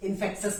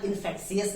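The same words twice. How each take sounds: First: इन्फेक्शस ending in a single "shus"; no i glide in इन्फेक्शस, just "in-fek-shus"; correct short ending. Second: इन्फेक्शियस with "shi-yas" at the end; wrong pronunciation, extra syllable. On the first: Teacher corrects learners, इन्फेक्शस with short "shus" ending. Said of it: "इन्फेक्शस कहते हैं इसको". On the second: Teacher shows what not to say, इन्फेक्शियस ending "shi-yas". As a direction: add an i glide before the last vowel of इन्फेक्शियस. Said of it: "इन्फेक्शियस नहीं बोलते". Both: Shown as a demonstration.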